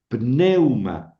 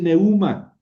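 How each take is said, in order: First: The stress falls on the e vowel. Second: The stress falls on the u vowel. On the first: The speaker calls it right. "se pronuncia siempre sobre la fuerte" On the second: The speaker calls it wrong. "No, no, no. Ese es un diptongo"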